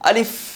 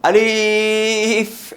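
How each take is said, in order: First: The vowel is short and quick. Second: The vowel is drawn out long. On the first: The speaker calls it right. "দ্রুত বলতে হবে" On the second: The speaker calls it wrong. "এটা ভুল"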